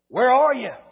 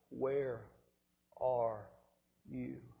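First: It is said in a mean, gruff tone. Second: It is said in a sorrowful, broken tone. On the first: The caller is angry. The speaker calls it wrong. "in a mean, gruff way" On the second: The caller is grieving. The speaker calls it right. "with a broken heart"

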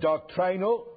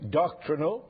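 First: It is said in a non-American way. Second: It is said in the American way. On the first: The speaker calls it right. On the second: The speaker calls it wrong.

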